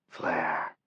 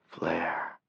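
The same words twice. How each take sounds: The two takes are said the same way.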